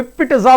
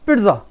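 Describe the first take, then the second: First: पिट्जा broken into "pit-tuh-za", drawn out; slow पिट्जा with an exaggerated separate t; overdone t. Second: पिट्जा run together as "pitza"; lower, compact पिट्जा with a light t; fluent correct pronunciation. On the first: Teacher mocking the overdone version, overpronounced. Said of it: "नहीं, पिट्जा". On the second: Teacher correcting the overdone take, fluently pronounced. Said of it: "थोड़ा fluency में बोला जाएगा". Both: Shown as a demonstration.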